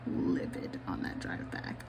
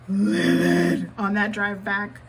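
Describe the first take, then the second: First: Low, soft, seething near-whisper; quietly livid. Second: Loud, slow, seething emphasis; livid. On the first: Retelling the silent furious drive home, whispered low and slow. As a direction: hiss it under the breath. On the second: Telling her viewers how mad she was, loud and slow. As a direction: spit the words out livid. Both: Shown as a demonstration. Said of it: "I was so angry".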